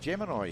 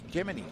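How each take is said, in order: First: It is said the local Australian way. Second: It is said the way the UK says it.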